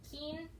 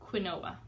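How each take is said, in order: First: The word is said unlike its letters. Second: The word is sounded out letter by letter. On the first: The speaker calls it right. "it's actually pronounced quinoa" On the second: The speaker calls it wrong. "you would think it says quinoa"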